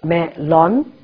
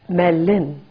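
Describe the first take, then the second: First: The last syllable has a full 'on' vowel. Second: The last syllable has a weak 'in' vowel. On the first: The speaker calls it wrong. "It's not melon" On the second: The speaker calls it right. "it is melin"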